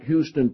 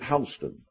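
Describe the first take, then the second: First: The name is pronounced the Texas way. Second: The name is pronounced the Georgia way. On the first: "named exactly like Houston, Texas" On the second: "in Georgia, they pronounce it Houston"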